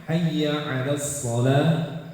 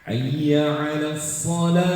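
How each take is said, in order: No difference in how they are said.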